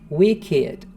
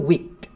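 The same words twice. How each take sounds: First: The word ends with an 'id' syllable. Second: The word ends with a t sound. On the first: The speaker calls it right. "você tem um i" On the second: The speaker calls it wrong. "não vai ser wicked"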